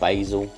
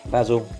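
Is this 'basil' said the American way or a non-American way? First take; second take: American; non-American. First: The word is said in an American way. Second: The word is said in a non-American way.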